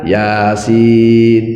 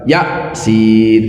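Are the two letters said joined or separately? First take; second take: joined; separately. First: The two letter names are joined as one word. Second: The two letter names are said separately. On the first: The speaker calls it right. "Tapi dibaca mat tobi harfi namanya. Makanya disebacanya yasin" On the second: The speaker calls it wrong. "bacanya bukan ya, sin kayak gitu"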